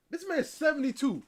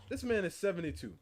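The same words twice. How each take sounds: First: Shocked. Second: Said in the usual way. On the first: Real, not acted.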